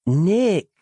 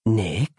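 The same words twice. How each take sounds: First: "Nick" said higher and louder, pressed hard; a firm, raised call of "Nick"; emphatically. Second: A wary query with a rising end; warily. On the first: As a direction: hit "Nick" firmly to demand an answer. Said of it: "more emphatically now". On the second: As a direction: ask uncertainly, almost afraid of no answer. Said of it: "more warily now". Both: Acted.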